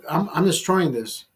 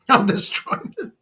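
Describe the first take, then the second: First: Said in the usual way. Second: Cracking up mid-brag, higher and slower; giggling, pitched up, drawn out; laughing. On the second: Retold or imitated. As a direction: laugh through the boast. Bragging quote repeated through laughter.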